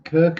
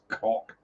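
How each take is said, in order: First: The vowel sounds like the one in 'bird'. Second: The vowel sounds like the one in 'lock'. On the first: "Kirk is the actual pronunciation" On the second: "but it's spelled K O K, so it's cock"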